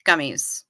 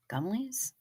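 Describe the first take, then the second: First: Said in the usual way. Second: Soft, breathy whispered question; a hushed, wistful whisper of Gummies?. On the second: Real, not acted. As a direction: whisper it like a secret craving. Whispered echo of the word.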